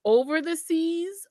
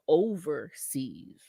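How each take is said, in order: First: "Over the seas" drawn out word by word; split into words. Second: "overseas" as one word, stretched on "over"; one long word. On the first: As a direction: stretch "Over the seas" as three separate words. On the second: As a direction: run "overseas" together, slowly. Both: Shown as a demonstration. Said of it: "There's a difference between over the sea".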